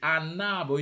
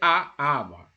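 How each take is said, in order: First: The n sound is joined onto the next word. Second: The words are said separately without an n link. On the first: The speaker calls it right. "You have to join. It is mandatory. Join" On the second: The speaker calls it wrong. "You cannot say a arbre"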